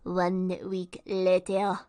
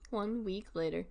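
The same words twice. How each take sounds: First: It is said in a put-on cartoon narrator voice. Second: It is said in the speaker's normal voice.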